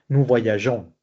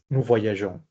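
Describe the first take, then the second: The two takes are said the same way.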